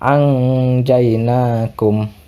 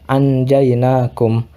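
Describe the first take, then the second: First: The n sound is hidden with nasalization. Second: The n sound is pronounced clearly. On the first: "diterapkan hukum ikhfa hakiki" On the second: "tanpa diterapkan hukum ikhfa hakiki"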